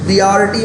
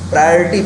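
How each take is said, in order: First: The first syllable sounds like 'pree'. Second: The first syllable sounds like 'pry'. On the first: The speaker calls it wrong. "प्रियोरिटी मत पढ़ना" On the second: The speaker calls it right. "प्रायोरिटी पढ़ते हैं"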